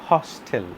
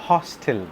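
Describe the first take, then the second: No difference in how they are said.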